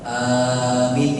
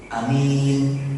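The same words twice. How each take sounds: First: The first vowel is drawn out long. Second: The first vowel is said short. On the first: It means O God, answer our prayer. The speaker calls it right. "dipanjangkan a-nya" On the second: It means someone who is trusted. The speaker calls it wrong.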